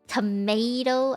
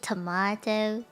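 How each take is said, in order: First: It is said with an American accent. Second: It is said with a British accent. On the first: "I won't say tomato" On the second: "I say tomato"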